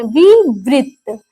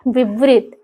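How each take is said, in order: First: विवृत drawn out slowly, each syllable spaced. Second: Said in the usual way. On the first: Shown as a demonstration. Teacher spelling out the term for her class, slowly drawn out. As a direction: stretch विवृत out so students catch every sound. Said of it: "वृत्त का अर्थ होता है गोला". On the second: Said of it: "इसका अर्थ समझ लेते हैं".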